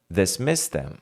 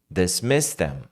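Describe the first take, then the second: First: The d sound before them is dropped. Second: The same.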